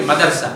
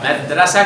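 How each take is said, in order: First: مدرسہ said "ma-dar-sa", vowel before the r; madarsa pronunciation. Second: مدرسہ said "mad-ra-sa", vowel after the r; madrasa pronunciation. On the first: (مدرسہ کا تلفظ "مَدَرسہ"، را ساکن) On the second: (مدرسہ کا تلفظ "مَدْرَسَہ"، دال ساکن) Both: Shown as a demonstration. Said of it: "مدرسہ کی مدرسہ ہوتا ہے".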